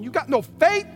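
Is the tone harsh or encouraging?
harsh. It sounds harsh and scolding.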